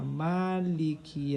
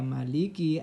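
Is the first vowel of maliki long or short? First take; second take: long; short. First: The first vowel after m is long. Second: The first vowel after m is short. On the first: It means the one who controls all affairs on that day. "mimnya dipanjangkan" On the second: It means the ruler of the Day of Judgment. "artinya itu adalah penguasa hari kiamat"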